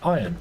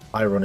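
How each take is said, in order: First: The word is said with no R sound. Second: The word is said with an audible R sound. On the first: "I don't even pronounce the R in it. I put ion" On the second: "the correct correct pronunciation for that because it's got an R in it"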